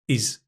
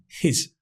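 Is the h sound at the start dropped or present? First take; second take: dropped; present. First: It begins straight on the vowel, no h. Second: It begins with a clear h sound. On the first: "we actually often drop the h" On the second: "it's not even his"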